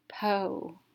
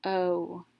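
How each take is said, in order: First: "po" joined into one syllable with long o; blended long vowel. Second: "P-O" as a p sound, then a long o. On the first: Teacher reading the open syllable, blended with long vowel. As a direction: blend "po" to rhyme with go. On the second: Teacher showing a long vowel sound, sounded out. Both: Shown as a demonstration. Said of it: "make a long vowel sound".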